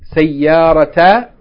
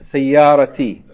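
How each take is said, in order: First: The word ends with an 'a' vowel. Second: The word ends with an 'i' vowel. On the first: The speaker calls it wrong. "you wouldn't say sayarata" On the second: The speaker calls it right. "but rather you say sayarati"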